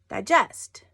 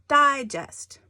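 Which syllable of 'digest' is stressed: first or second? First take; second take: second; first. First: The stress is on the second syllable. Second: The stress is on the first syllable. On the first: To break down food in the stomach. "I'm putting the emphasis on the second syllable" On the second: A magazine with short stories. "I'm putting more emphasis on it"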